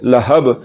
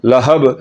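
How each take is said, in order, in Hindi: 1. आख़िरी ब में एक तेज़, गूँजता हुआ झटका होता है। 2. आख़िरी ब में एक तेज़, गूँजता हुआ झटका होता है।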